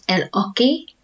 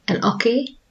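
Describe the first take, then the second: First: El hockey with an English h; wrong English hockey. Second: El hockey with a silent h, as ockey; Spanish hockey. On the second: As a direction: drop the h in hockey. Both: Shown as a demonstration. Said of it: "we don't pronounce it el hockey".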